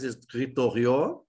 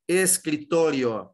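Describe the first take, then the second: First: Escritorio with stress on the last syllable, escritorió; slow escritorio, stressing the final o as in French; French-style stress. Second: Escritorio slowly, stress on to, escri-TO-rio; correct Spanish stress. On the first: Teacher shows students a wrong French-style escritorio, final stress. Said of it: "Se fosse o francês". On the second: Teacher shows students correct Spanish escritorio, stress on to. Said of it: "aqui a sílaba tônica". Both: Shown as a demonstration.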